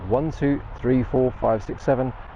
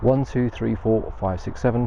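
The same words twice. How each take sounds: First: Background noise is left in, unsuppressed. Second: Background noise is filtered out and suppressed. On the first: "without the noise cancellation" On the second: "the noise cancellation feature is switched on"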